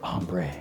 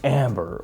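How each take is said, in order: First: It is said with a French accent. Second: It is said with a plain English accent.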